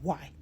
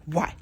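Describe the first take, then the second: First: Said in the usual way. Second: A touch of angry challenge; retold anger. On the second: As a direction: demand it back, mildly cross. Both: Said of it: "with anger".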